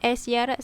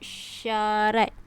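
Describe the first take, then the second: First: The s and y are sounded separately. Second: The s and y blend into one sound. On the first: The speaker calls it wrong. "S yarat salah" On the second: The speaker calls it right. "S Y tu kita sebut sekali"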